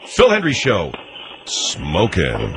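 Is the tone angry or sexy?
sexy. It is said in a sexy tone.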